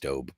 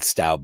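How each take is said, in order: First: The vowel sounds like 'oh' in 'go'. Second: The vowel sounds like 'ow' in 'cow'. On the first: This is reportedly the correct way to say it. The speaker calls it right. "apparently it's Stobe" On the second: This is how the speaker has always said it. The speaker calls it wrong. "I've called it Staub my whole life"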